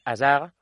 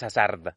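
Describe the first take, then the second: First: "Hazard" sin la de final, con erre francesa; pronunciación francesa. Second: "Hazard" a la española, pronunciando la de final; pronunciación incorrecta. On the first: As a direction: di "Hazard" a la francesa, comiéndote la última consonante. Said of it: "eliminar siempre la última consonante". ("Hazard" como "asag", con erre gutural) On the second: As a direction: di "Hazard" como "asarda", con todas las consonantes. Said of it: "no dices Hazard". ("Hazard" con erre española y de final marcada) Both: Shown as a demonstration.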